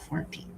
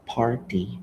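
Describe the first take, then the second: First: The word begins with an F sound. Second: The word begins with a P sound. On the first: The speaker calls it wrong. "so I ma-pronounce na to siya og farty" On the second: The speaker calls it right.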